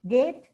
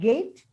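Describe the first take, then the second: First: The vowel is one long steady sound. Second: The vowel glides from one sound to another. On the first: A speaker whose mother tongue lacks this diphthong says it. The speaker calls it wrong. "Long vowel A" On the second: The standard form of the word. The speaker calls it right. "Instead of gate"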